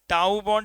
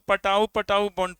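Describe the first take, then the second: First: The word begins without any P sound. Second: The word begins with a pronounced P sound. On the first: The speaker calls it right. "पी silent है" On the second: The speaker calls it wrong. "नहीं तो तुम लोग पटाऊ पटाऊ बॉन्ड पढ़ेगा"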